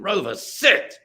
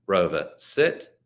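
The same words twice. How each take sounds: First: The command is shouted loudly. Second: The command is said at normal volume, neutrally. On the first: There is a dire emergency. "what I would shout is" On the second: It is an ordinary training instruction. "it should be tone and volume free. It should be clear"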